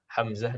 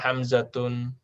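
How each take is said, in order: First: The name ends with -h, without a vowel. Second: The name ends with the nasal ending -tun. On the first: This is the simple everyday form. "Adapun keseharian, ya nggak ribet" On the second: The name is treated as taking tanwin. "nggak boleh kita bilang"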